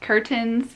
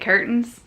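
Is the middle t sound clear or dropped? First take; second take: clear; dropped. First: The middle t is pronounced clearly. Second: The middle t is dropped or swallowed. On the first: The speaker calls it wrong. "And curtain and like curtains" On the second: The speaker calls it right. "we say curtains"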